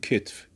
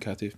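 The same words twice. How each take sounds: First: It uses the everyday Persian pronunciation. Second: It uses a pronunciation not used in Persian. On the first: "میگیم کتف" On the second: "ما خودمون تو فارسی نمیگیم کتف"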